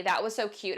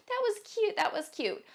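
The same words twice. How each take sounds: First: Said in the usual way. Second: Catty mock praise. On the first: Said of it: "Saying to somebody". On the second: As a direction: coo it mockingly like a catty girl.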